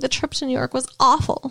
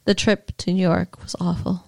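First: It is said with more expression. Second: It is said flat and deadpan.

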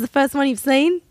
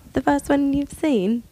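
First: It is spoken in an Australian accent. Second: It is spoken in a British accent. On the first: The speaker calls it right. "that's better" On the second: The speaker calls it wrong. "Nope, that was British"

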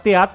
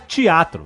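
First: It is said without the Carioca accent. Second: It is said with a Carioca accent.

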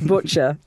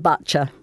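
First: The vowel is said in a plain way. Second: The vowel is said in an overly posh way. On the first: The speaker calls it right. "no, it's butcher" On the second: The speaker calls it wrong. "like Hyacinth Bouquet"

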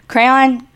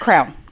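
First: The word is said with two syllables, cray-on. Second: The word sounds like one syllable, crown.

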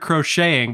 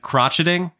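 First: The middle consonant is a soft 'sh' sound. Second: The middle consonant is a hard 'tch' sound. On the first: "I knew the word crocheting" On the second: "I very confidently pronounce it crotcheting, and I never lived it down"

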